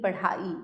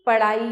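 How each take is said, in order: First: Said in the usual way. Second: पढ़ाई as paraai, unaspirated flap. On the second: Shown as a demonstration. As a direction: drop the aspiration in पढ़ाई. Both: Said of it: "पढ़ाई नहीं".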